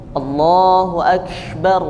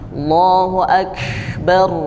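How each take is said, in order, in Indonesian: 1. Bunyi k dilepaskan dengan hembusan napas. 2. Bunyi k dilepaskan dengan hembusan napas.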